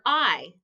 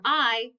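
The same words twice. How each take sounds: First: Said in the usual way. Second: I as the short vowel in "it"; letter sound. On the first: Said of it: "This is the letter I". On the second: Shown as a demonstration. Teacher showing what sound I makes, I said as "ih". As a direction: say I as "ih", not "eye". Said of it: "Letter I makes the I sound".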